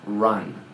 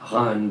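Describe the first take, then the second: First: It is said with an English accent. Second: It is said with a French accent. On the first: The speaker calls it right. "but run... to really sound like an English kid" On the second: The speaker calls it wrong. "I had this really horrible French accent... to not say run"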